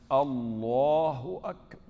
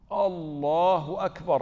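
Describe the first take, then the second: First: Slow, stretched-out Allahu Akbar, louder; drawn-out takbir. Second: Slow, louder Allahu Akbar; drawn-out takbir. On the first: Mimicking the worried man's endless takbir, slow and drawn out. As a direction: drag out every syllable like he doubts it. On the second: Mimicking the worried man's repeated takbir, slow and louder. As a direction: stretch it out again, more insistent. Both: Retold or imitated.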